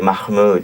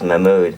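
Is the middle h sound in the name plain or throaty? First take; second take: throaty; plain. First: The middle h sound is harsh and throaty. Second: The middle h sound is soft and plain. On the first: "they'll say Mahmoud because they do the the khaz" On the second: "I don't do the khaz. I do the uz"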